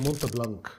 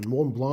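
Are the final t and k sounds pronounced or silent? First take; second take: pronounced; silent. First: The final t and k sounds are pronounced. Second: The final t and k sounds are silent. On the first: The speaker calls it wrong. "وتقول عليها مونت بلانك" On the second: The speaker calls it right. "حاجة من مون بلان"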